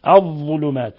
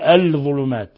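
First: The l merges into the following dh. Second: The l is pronounced separately before dh. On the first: The speaker calls it right. "اللام شمسية لأن اللام أدغمت" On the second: The speaker calls it wrong. "ولم نقل"

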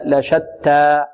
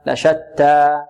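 The two takes are said the same way.

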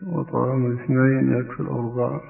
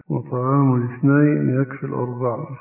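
Both takes have the same delivery.

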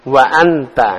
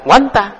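First: A glottal catch separates wa from anta. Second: Wa runs straight into anta without a break. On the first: The speaker calls it right. "Kalau dikasih wawu, wa anta" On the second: The speaker calls it wrong. "ndak wanta, ndak ada"

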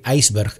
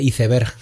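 First: It is pronounced the English way. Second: It is pronounced the Spanish way. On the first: The speaker calls it right. "por pronunciarlo bien" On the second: The speaker calls it wrong. "lo mal que pronunciamos aquí el inglés"

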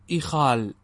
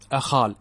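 First: The word begins with an 'i' vowel. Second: The word begins with an 'a' vowel. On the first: "والأكثر إخال بكسرها على خلاف القياس" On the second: "بفتح الهمزة"

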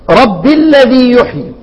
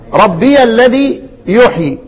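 First: The first word runs into the next without 'ya'. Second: The first word ends in a clear 'ya' syllable. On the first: This is the reading of a single reciter. "فاسكانها فاشن، هو الوحيد اللي هيقرا" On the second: This is the reading of the remaining reciters. "والباقون"

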